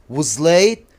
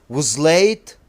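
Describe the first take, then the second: No difference in how they are said.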